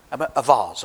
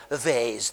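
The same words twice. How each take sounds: First: Said in the usual way. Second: "vase" said the southern English way, as "vahz", a little softer; a vase the way they say it in the south of England. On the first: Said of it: "a vase, they say down there". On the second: Shown as a demonstration. Teaching children how southerners say "vase", southern English accent. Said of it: "they say down there".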